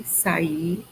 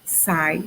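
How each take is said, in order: First: "sair" said sa-Í without the r, stressed at the end; two syllables for "sair", final r dropped, landing on Í. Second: "sai" as one gliding syllable, stressed on A. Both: Shown as a demonstration. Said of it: "tabelinha com algumas curiosidades".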